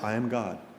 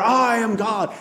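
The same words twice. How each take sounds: First: It is said at a normal, quiet volume. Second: It is shouted even louder.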